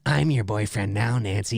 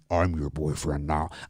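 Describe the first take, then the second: First: It is said in Robert's natural, higher voice. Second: It is said in an artificially lowered, deep voice.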